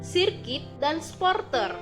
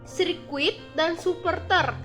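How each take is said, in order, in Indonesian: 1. Bunyi u dihilangkan dari kedua kata. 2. Bunyi u dipertahankan di kedua kata. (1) "pelafalan tidak bakunya" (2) "Pelafalan bakunya"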